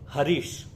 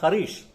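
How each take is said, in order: First: It begins with a plain h sound. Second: It begins with a raspy kh sound.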